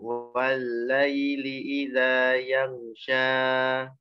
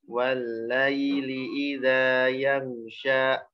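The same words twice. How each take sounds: First: The final vowel is held far too long. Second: The final vowel is cut off by a glottal stop. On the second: "karena takut kepanjangan jadi hamzah"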